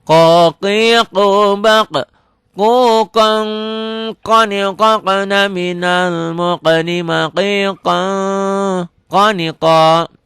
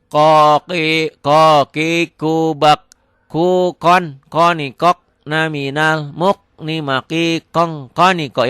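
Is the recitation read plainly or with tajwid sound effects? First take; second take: tajwid; plain. First: Read with nasal hiding and an echoing bounce. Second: Read plainly, without nasal hiding or echoing bounce. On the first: "kalau belajar sudah ke Quran, ini ada ketentuannya" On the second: "Boleh nih kayak gini kalau nggak pakai tajwid dulu"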